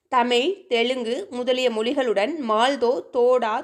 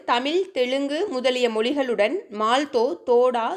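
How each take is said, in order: No difference in how they are said.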